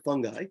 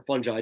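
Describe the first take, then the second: First: "fungi" with a hard g, like "fun-guy"; hard g pronunciation. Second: "fungi" with a soft g, like "fun-jai"; soft g pronunciation. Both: Shown as a demonstration. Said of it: "depending on how you wanna pronounce it".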